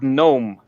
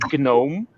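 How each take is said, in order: First: The word starts with an N sound, no G. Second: The word starts with a hard G sound. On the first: The speaker calls it right. "The G in there is not pronounced at all" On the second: The speaker calls it wrong. "so many people say gnome"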